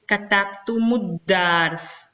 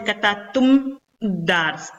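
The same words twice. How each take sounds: First: Slow "katabtumu dars", U after the M joining the D; linked with dhamma. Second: "katabtum dars" slowly, closed M, then a break before D; unlinked closed ending. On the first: Teacher showing the pronounceable form, slow linking U. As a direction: link "katabtumu dars" through an added U. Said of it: "una dhamma". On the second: Teacher showing what cannot be said, two consonants clashing. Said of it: "No puedo decir". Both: Shown as a demonstration.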